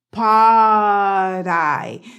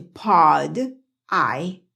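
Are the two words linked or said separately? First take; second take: linked; separate. First: The words are linked, D sounds like quick R. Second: The two words are said separately, clear D. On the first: The speaker calls it right. "Se conecta el pod con la I y esa D se convierte en esa D de ellos" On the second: The speaker calls it wrong. "Yo dije pod, I, pero cuando ellos están conversando, ellos no hablan así"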